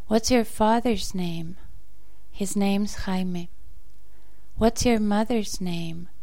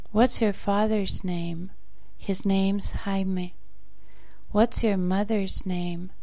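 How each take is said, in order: Both takes have the same delivery.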